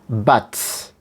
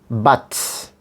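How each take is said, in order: First: The vowel is a full, open 'uh' sound. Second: The same.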